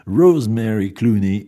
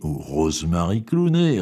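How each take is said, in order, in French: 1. Le nom se prononce à l'anglaise. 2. Le nom se prononce à la française.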